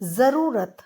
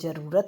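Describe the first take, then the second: First: The word starts with a 'z' sound. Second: The word starts with a 'j' sound. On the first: The speaker calls it right. "इसमें नुक्ता आता है" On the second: The speaker calls it wrong. "हम इसको जरूरत बोलते हैं"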